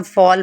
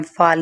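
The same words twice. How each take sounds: First: फॉल with rounded "aw"; long round vowel in फॉल; correct "o" sound. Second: फाल with open "aa"; unrounded vowel in फाल; wrong pronunciation. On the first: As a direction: say फॉल as "fawl". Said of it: "इसे हम फॉल पढ़ते हैं". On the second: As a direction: say फाल as "faal". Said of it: "फाल नहीं पढ़ते". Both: Shown as a demonstration.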